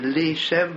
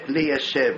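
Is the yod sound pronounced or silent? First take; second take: silent; pronounced. First: The yod sound is swallowed and silent. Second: The yod sound is clearly pronounced. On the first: The speaker calls it right. "אומרים לי שב בסוכה" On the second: The speaker calls it wrong. "ולא לי ישב"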